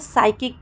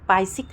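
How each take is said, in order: First: The word begins with an s sound. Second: The word begins with a p sound. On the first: The speaker calls it right. "हम इसको साइकिक पढ़ते हैं" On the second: The speaker calls it wrong. "पाइसिक नहीं पढ़ते हैं"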